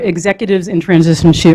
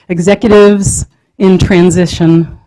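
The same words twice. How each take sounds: First: The phrase is said at a quick pace. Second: The phrase is said at a slow pace. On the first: The speaker calls it wrong. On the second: The speaker calls it right. "let me say that slowly"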